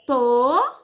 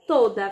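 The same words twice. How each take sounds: First: "Toda" split into a drawn-out to, pause, da; syllable by syllable. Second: Said in the usual way. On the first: Shown as a demonstration. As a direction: stretch and separate both syllables of "Toda". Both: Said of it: "Quantas vezes a [name] abriu a boca".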